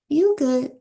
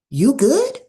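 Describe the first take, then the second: First: It is said as a relaxed, polite refusal. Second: It is said in a worried, caring tone. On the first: No thanks, that's okay. "that's okay" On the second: The speaker is checking on someone's wellbeing. "that will communicate concern"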